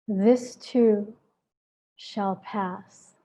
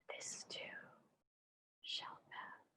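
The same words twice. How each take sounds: First: It is spoken aloud in a full voice. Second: It is whispered without full voice.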